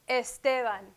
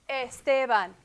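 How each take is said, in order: The two takes are said the same way.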